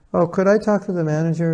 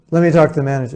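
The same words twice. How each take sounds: First: Higher-pitched, courteous asking; nice, polite request. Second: Louder, irate customer demand. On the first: Customer politely asking the cashier for the manager, nicely. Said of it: "He wasn't nice about it". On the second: Irate customer demanding the manager from the cashier, loud and insistent. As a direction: demand it forcefully, as an annoyed customer. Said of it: "he's getting all irate". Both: Acted.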